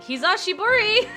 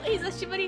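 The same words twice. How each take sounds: First: It is said with a heavy English accent. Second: It is said with a natural Japanese accent.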